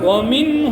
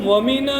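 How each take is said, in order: First: The n is closed without any following vowel. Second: The n is followed by an added a vowel. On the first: The speaker calls it right. "वामिन हुम" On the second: The speaker calls it wrong. "वमीना नहीं, नून पर जबर जैसी आवाज नहीं आनी चाहिए"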